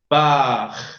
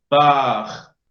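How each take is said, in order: Both takes have the same delivery.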